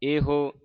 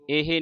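First: ਇਹੋ with a rounded vowel after h; correct pronunciation. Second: ਇਹ misread with an i sound after h; wrong pronunciation. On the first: Teacher spelling h with its u sign, correct pronunciation. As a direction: round the lips at the end of ਇਹੋ. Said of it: "ਇਹੋ ਹਾਹੇ ਨੂੰ ਔਂਕੜ". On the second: Teacher warning the congregation off a misreading, wrong pronunciation. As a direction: end ਇਹ unrounded, as ee-hee. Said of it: "ਇਹ ਨਹੀਂ ਪੜ੍ਹਨਾ". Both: Shown as a demonstration.

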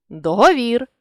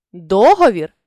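First: Договір with final ВІР stressed; stress on last syllable. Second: Договір with ДО stressed; stress on first syllable. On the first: Teacher shows a stress variant, договір stressed on ВІР. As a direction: land on ВІР ending договір. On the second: Teacher shows a stress variant, договір stressed on ДО. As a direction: punch the opening ДО of договір. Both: Shown as a demonstration. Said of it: "наголосивши той чи інший склад".

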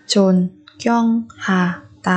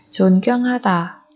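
First: 존경하다 in separate beats; syllable by syllable. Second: Said in the usual way. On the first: Shown as a demonstration. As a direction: pause after each syllable of 존경하다. Teacher splits word by syllable. (đọc 존경하다 tách từng âm tiết)

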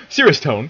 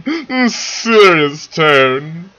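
First: Said in the usual way. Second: Long drawn-out, louder and higher joke seriousness; mock serious tone. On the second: Reader jokes about getting ready to narrate, mock serious tone. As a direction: stretch it hugely, hamming up the seriousness.

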